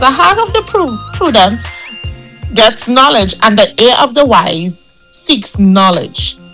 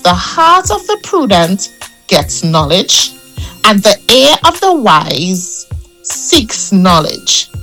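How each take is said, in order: First: The verse is read at a normal speed. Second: The verse is read more slowly.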